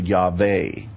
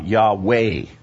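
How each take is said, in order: First: The middle consonant is a V sound. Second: The middle consonant is a W sound. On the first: This is the later pronunciation. "as opposed to" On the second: This is the older pronunciation. "in the old version, it was Wah"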